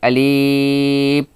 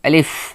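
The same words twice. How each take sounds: First: The word is stretched out long. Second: The word is said short and quick. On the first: The speaker calls it wrong. "আবার যদি কেউ বলে আলিফ, এটাও ভুল উচ্চারণ হবে" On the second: The speaker calls it right. "বলতে হবে আলিফ তাড়াতাড়ি"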